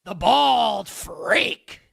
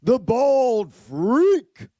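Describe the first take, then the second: First: Slow, stretched delivery leaning on bald; announcer demo. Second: Slow, stretched, high announcer shout with stress on freak; announcer demo. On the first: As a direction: hit "bald" hard and stretch "the bald freak" slowly. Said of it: "I'm more of, like, the". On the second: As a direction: draw out "The bald freak" and punch freak. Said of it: "I would do something like this". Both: Shown as a demonstration.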